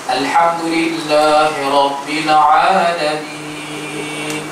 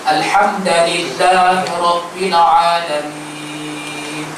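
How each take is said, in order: No difference in how they are said.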